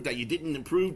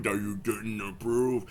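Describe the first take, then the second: First: Said in the usual way. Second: Mock deep voice. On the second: Repeats line slower and deeper.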